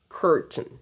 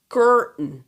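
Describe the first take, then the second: First: The T sound is clearly pronounced before the N. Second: The T sound is dropped before the N. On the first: "Mais certains d'autres vont dire curtain" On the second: "Certains ne prononcent pas le T, le T A I"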